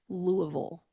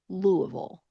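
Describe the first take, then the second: First: It is mumbled with a nearly closed mouth. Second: The same.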